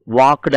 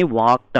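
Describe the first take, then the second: First: "వాక్డ్" with a voiced d ending, wakud; common wrong pronunciation. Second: "వాక్డ్" ending in unvoiced t, wakt; correct t ending. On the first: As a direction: put a vowel and d after the k in "వాక్డ్". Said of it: "అంటాం మనం". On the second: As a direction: run k straight into t in "వాక్డ్". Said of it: "కానీ వాక్డ్ అనాలి". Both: Shown as a demonstration.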